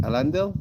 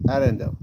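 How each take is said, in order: First: "Elendil" lifted high at the end, as a question; questioning rise on Elendil. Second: "Erendil" falling at the end, as a decided answer; settled fall on Erendil. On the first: Streamer tests two similar names, "Elendil" as a questioning rise. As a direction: try "Elendil" with a rising, unsure tune. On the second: Streamer settles which name is meant, "Erendil" with a decided fall. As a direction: land "Erendil" firmly with a falling tune. Sorting out two similar names. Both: Shown as a demonstration.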